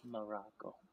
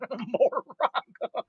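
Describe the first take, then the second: First: The word is said softly and carefully articulated. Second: The word is said loudly and casually. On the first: The speaker calls it right. "I speak much softer and more pronounced" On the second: The speaker calls it wrong. "that's the wrong way to pronounce it. I wasn't soul speaking"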